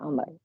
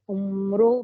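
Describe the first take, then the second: First: The name ends on a consonant, no final vowel. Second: The name ends with an audible 'o' vowel. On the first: The speaker calls it right. "वॉव को नहीं पढ़ा जाता है" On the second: The speaker calls it wrong. "ये उमरो पढ़ा जा रहा था"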